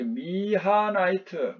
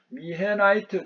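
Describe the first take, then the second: First: The second syllable has the vowel 'a'. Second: The second syllable has the vowel 'ae'.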